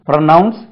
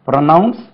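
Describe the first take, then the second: Both takes have the same delivery.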